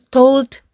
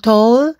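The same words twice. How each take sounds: First: The word ends with a clear D sound. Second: The word ends without a D sound. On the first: The speaker calls it right. "Jangan lupa untuk mengatakan D pada akhir kata" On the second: The speaker calls it wrong. "jadi bukan told"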